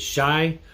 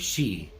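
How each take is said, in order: First: The vowel sounds like 'eye'. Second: The vowel sounds like 'ee'. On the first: "pronounced as shy" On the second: "or she"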